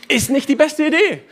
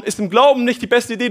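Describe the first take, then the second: First: Higher, teasing put-on voice on "Idee"; playful repeat. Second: Said in the usual way. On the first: Shown as a demonstration. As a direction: toss the line back with a wink. Preacher repeats line playfully.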